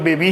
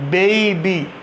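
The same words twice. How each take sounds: First: The first vowel is a single plain vowel. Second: The first vowel glides as a diphthong. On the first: The speaker calls it wrong. "अक्सर लोग बेबी ही बोलते हैं, but it is absolutely wrong" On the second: The speaker calls it right. "डिप्थोंग लग जाएगा तो ए, बेबी"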